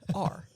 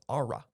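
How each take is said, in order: First: The letter is said as a plain 'ar'. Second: The letter is drawn out to sound like 'aura'.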